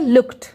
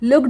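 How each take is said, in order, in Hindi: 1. अंत का उच्चारण t साउंड की तरह होता है। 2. अंत का उच्चारण d साउंड की तरह होता है। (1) "ट होगा" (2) "लुक्ड नहीं पढ़ेंगे, ड साउंड नहीं आएगा"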